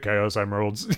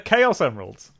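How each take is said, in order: First: Both words are said flat, without stress. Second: The word Chaos carries the stress. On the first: The speaker calls it wrong. "To do them flat" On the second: The speaker calls it right. "They're not just emeralds"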